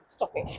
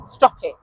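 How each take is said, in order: First: Soft stop it. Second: Firm stop it. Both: Shown as a demonstration.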